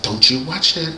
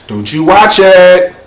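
First: Imitating mom, keep it hushed; mother's warning. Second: Loud, drawn-out, higher warning; imitating mom, louder and stretched out; mother's stern warning. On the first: Mother warning kid about Thriller, softly imitated warning. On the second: Mother forbidding Thriller video, imitated loud stern warning. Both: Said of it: "my mother's like".

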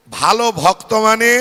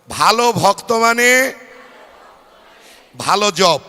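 First: Loud call for the crowd to repeat; mantra call. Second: Louder, spelled-out call of the mantra. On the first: Preacher leading the congregation to repeat the mantra, loud call. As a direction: call out the mantra line loudly. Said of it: "আমার পরে পরে বলবেন". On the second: Preacher urging the crowd to say it louder, loud call. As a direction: call it out for all to repeat. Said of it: "জোরে বলুন". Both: Shown as a demonstration.

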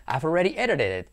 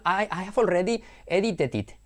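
First: Edited it as ererer et; I've already edited it with ererer et; native flap. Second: Edited it with full clear t's; edited it as e-di-ted it; careful learner English. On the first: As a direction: let the t's flap and link. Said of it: "no, edited it". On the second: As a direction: spell each sound out stiffly. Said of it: "Dicho mal". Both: Shown as a demonstration.

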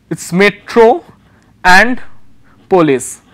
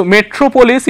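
First: Metro and polis read in slow broken pieces with long pauses; split reading. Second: Said in the usual way. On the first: Shown as a demonstration. Teacher reading a poster word to students in halting chunks. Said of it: "If we start reading from here". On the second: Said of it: "So metropolis".

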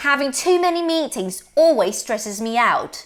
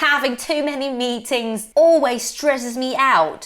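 First: Said in the usual way. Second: "always" stressed a little; demo example. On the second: Shown as a demonstration. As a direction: lean on "always" slowly. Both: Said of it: "เช่น".

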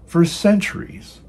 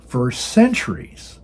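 First: "for centuries" pushed up higher, ending on a rise; emphatic repeat. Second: Said in the usual way. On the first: Real, not acted. Preacher repeating the charge against the monarchy, with a high rising emphasis. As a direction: lift "for centuries" high the second time.

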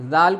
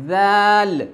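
First: Said in the usual way. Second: زال as "dhaal", vowel held long; drawn-out madd. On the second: Shown as a demonstration. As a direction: stretch the vowel in زال with tongue-tip th. (مد کے ساتھ لمبا ذال) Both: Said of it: "اسی طریقے سے".

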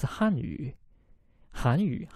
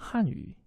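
First: "Hanyu" with rising second-tone Han; "Hanyu" as Korean, Han rising. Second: "Hanyu" with falling fourth-tone Han; "Hanyu" as Chinese, Han going down. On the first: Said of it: "Second tone, right? Han, going up". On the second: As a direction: drop Han sharply down in "Hanyu". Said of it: "that's fourth tone, going down". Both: Shown as a demonstration.

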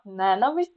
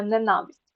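First: Ненависть stressed on НЕ, as often misheard in use; wrong stress on first syllable. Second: Ненависть stressed on НА; stress on second syllable. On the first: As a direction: say НЕнависть, leaning on НЕ. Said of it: "ну, часто чую". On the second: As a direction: say неНАвисть, leaning on НА. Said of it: "від слова ненавидіти". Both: Shown as a demonstration.

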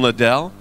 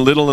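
First: Short first syllable, stressed ending in Liddell; Liddell stressed on second syllable. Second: First syllable of Liddell stressed, second reduced. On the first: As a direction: say Liddell as lih-DELL. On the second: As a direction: say Liddell like "little". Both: Shown as a demonstration. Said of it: "do I keep switching between".

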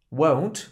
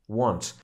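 First: "Won't" with a rounded o. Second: "want" with a flat, open a. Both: Shown as a demonstration. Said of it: "nie słyszysz różnicy".

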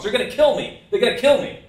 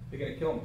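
First: High, loud panicked phone cry; mock scream, raised in pitch and volume; imitated screaming. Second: Said in the usual way. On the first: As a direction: yell it out, imitating a desperate caller. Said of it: "screaming at the top of his lungs".

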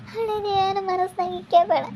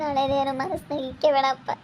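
First: High, crying wail of a plea; the words breaking into a higher sob. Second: Soft, tearful begging; tearful plea. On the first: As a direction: daughter wails her plea to her father, crying. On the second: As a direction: plead quietly through tears. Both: Acted. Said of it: "ಸುಪ್ಪು, ಅಳ್ಬೇಡ".

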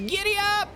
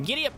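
First: Very high, loud cowboy whoop; all-out high, rallying yell; proper giddy up. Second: Raised, quick whoop; half-strength giddy up. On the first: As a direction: shriek it out at full tilt. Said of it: "This is giddy up". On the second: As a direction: call it out high but not at full pitch. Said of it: "that's not giddy up". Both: Shown as a demonstration.

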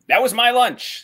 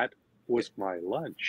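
First: "That was my lunch." high and loud, punch on "my"; stress on my. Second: "That was my lunch." slow and soft, stress on "was" instead of "my"; "That was my lunch." with the stress moved wrongly onto "was"; wrong emphasis. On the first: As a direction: hit "my" hard, claiming it. First take, emphasis on my. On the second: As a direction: lean on "was" as if arguing it really was your lunch. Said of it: "With the, with the wrong emphasis". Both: Shown as a demonstration.

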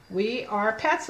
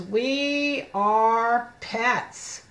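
First: Said in the usual way. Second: Very slow, each word stretched long; slow model reading. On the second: Shown as a demonstration. Teacher reading the book title to children, very slow word-by-word. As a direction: draw out every word separately.

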